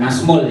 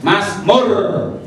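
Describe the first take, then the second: First: The word ends with an L sound. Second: The word ends with an R sound. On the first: The speaker calls it wrong. "Bukan Mazmul ya" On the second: The speaker calls it right.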